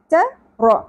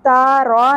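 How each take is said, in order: First: The vowels are kept short. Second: The vowels are drawn out long. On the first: The speaker calls it right. "زیادہ نہیں کھینچنا" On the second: The speaker calls it wrong. "نہیں پڑھنا"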